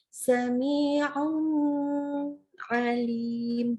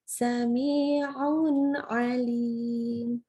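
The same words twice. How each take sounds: First: The nun sound is held too long. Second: The nun flows straight into the next word. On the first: The speaker calls it wrong. "jangan ditahan" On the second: The speaker calls it right.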